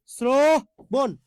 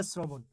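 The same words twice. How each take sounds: First: শ্রবণ drawn out as "sro... bon"; slow teaching split of শ্রবণ, stretched "sro"; syllable-by-syllable demonstration. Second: Said in the usual way. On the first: Shown as a demonstration. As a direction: hold a long O in শ্রবণ, then add "bon". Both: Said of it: "অয়ের উচ্চারণটা ও করতে হয়".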